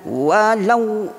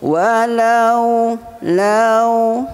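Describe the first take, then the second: First: The lau is clipped short and hit hard. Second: The lau is soft and smoothly drawn out. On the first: The speaker calls it wrong. "lau kejap sangat itu kita hentak waw tu, kita keraskan dia" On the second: The speaker calls it right. "waw lembut"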